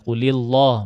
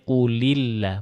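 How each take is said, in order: First: The L in Allah is heavy and full. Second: The L in Allah is light and thin. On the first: The speaker calls it wrong. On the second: The speaker calls it right. "ini lafaz Allahnya ini dibaca tipis karena sebelumnya berharokat kasrah"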